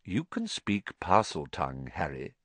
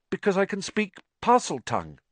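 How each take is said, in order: First: Put-on soft, calm old headmaster. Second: Put-on higher boy's voice, worried; a boy blurting his secret; earnest boy confessing; anxious young Harry. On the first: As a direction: settle him with quiet calm. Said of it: "said Dumbledore calmly". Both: A narrator's reading.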